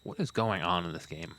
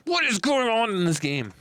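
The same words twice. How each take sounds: First: Low, soft muttering to oneself; quiet bafflement. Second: High-pitched, incredulous outcry; exaggerated bafflement. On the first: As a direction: say it low and under the breath. Baffled, first muttered take. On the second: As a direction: pitch it way up, falling at the end. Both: Real, not acted.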